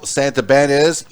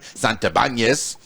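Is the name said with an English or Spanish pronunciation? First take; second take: English; Spanish. First: The name is said with English pronunciation. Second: The name is said with Spanish pronunciation.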